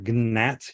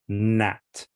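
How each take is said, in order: First: The word begins with a hard G sound. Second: The word begins with an N sound. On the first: The speaker calls it wrong. "you don't say gna or gnat" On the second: The speaker calls it right. "you say gnaw, gnat"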